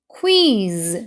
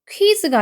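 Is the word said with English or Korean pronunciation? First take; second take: English; Korean. First: It is said with English sounds. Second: It is said with Korean loanword sounds. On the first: The speaker calls it right. "quiz 이렇게 읽어주셔야 돼요" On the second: The speaker calls it wrong. "퀴즈가 아니고"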